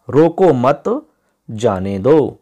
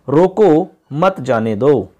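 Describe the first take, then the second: First: रोको मत together, long gap, then जाने दो; group रोको मत, then let जाने दो stand alone; pause after मत. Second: रोको set apart, then मत जाने दो run together; pause after रोको. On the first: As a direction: break the sentence after मत. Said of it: "लेकिन एक विराम चिन्ह के वजह से". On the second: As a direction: break after रोको, keep मत जाने दो as one slow phrase. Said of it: "अंतर आ जाता है वाक्य के अंदर". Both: Shown as a demonstration.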